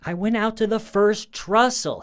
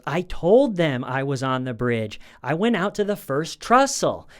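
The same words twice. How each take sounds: First: Imitating a husband's high, loud, strained-up protest; voice going up. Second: Imitating a husband whose voice climbs high and loud; voice going up. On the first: Husband in trouble with his wife, voice shooting up. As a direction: push the pitch right up, mimicking his defensive line. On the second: Husband answering his wife about the bridge, voice going up. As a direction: let the retold protest rise in pitch to the end. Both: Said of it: "the way his voice goes up".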